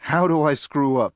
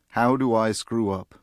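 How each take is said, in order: First: It is said as a curious question. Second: It is said as a sorrowful statement.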